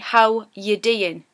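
It is said in a Geordie accent.

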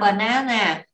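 It is said with English pronunciation. The speaker calls it wrong.

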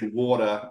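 It is said in an Australian accent. "we say water"

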